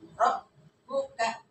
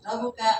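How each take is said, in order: First: The b is pressed hard, sounding doubled. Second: The b passes quickly, sounding single. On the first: The speaker calls it right. "Jadi ada penekanan" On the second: The speaker calls it wrong. "lewat aja gitu"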